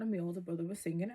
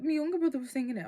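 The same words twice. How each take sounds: First: Said in the usual way. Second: Louder, quicker correcting shout; excited correction. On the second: Retold or imitated. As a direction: blurt the fix out fast. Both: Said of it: "I was like".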